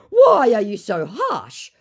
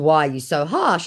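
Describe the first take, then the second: First: High, slow whining complaint; mock the scammer's hurt tone; imitating a whiny scammer; whiny mock question. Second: Said in the usual way. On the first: Scammer's whine.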